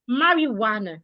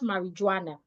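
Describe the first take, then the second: First: The j is sounded like a w. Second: The j is sounded like a j. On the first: The speaker calls it right. "the J sounds like a W" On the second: The speaker calls it wrong. "not marijuana"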